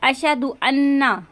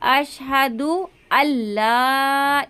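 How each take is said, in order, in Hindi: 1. दूसरे शब्द में दोहरी 'n' की आवाज़ है। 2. दूसरे शब्द में दोहरी 'l' की आवाज़ है। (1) "इस तरह से पढ़ते हैं तो ये गलत है" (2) "लाम की जो तशदीद है हमें इसको पढ़ना है"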